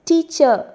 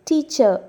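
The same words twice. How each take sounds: Both takes have the same delivery.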